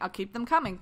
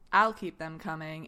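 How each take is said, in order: First: It is said in a plain, friendly way. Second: It is said in a suggestive, innuendo-laden way. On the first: It simply promises more stories. The speaker calls it right. "instead of saying" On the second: It hints at a sexual meaning. The speaker calls it wrong. "It was the way you said it. You said"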